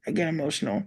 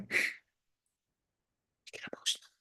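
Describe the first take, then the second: First: Said in the usual way. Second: Breathless whisper, much softer; whispered "get emotional", barely audible. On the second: Real, not acted.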